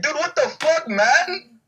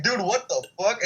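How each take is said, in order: First: High-pitched, hammed-up disbelief; mock outrage. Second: Mildly incredulous, higher voice; retold disbelief. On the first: Joking about smacking his own lunch away, mock outrage. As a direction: squeal it in mock shock. Retold own reaction, exaggerated. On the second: Friend reacting to food smacked away, mock disbelief. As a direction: imitate a baffled friend, lightly.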